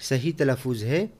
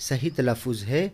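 Both takes have the same delivery.

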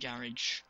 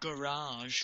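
First: It is said with a British pronunciation. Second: It is said with an American pronunciation.

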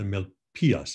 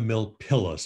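First: The double L is said as a Y sound. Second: The double L is said as an L sound. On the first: The speaker calls it right. "Double L in Spanish is pronounced as a Y" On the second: The speaker calls it wrong. "it's not the Milpias mine"

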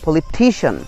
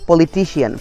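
First: The stress falls on the syllable before -cian. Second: The stress falls on a different syllable. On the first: The speaker calls it right. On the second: The speaker calls it wrong.

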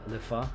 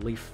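First: The name is pronounced a non-French way. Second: The name is pronounced the French way. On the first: "Otherwise, I think it's Lefa" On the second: "according to the French pronunciation of the word"

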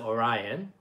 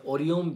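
First: The name is said with English-style vowels and stress. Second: The name is said with even Japanese-style syllables. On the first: This is how many people outside Japan say it. "I know a lot of people pronounce it Orion" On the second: This is how people in Japan say it. "in Japan, we call it Orion Biru"

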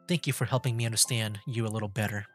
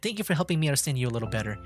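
First: It is spoken in the put-on voice of Yuri. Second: It is spoken in the put-on voice of Sayori.

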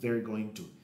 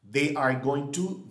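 First: They and are merge into one short syllable. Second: They and are are said as two full words. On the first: "la contracción" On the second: "both forms"

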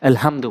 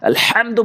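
First: The h-sound comes from the start of the throat. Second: The h-sound comes from the middle of the throat. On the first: The speaker calls it wrong. "এজন্য সূরা ফাতিহার ওখানে আলহামদু বলে" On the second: The speaker calls it right. "আলহামদু বলতে হবে"

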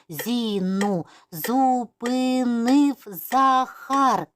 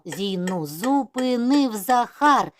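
First: It is spoken slowly, syllable by syllable. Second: It is spoken at a fast pace. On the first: "повільно по складах" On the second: "І ще швидше"

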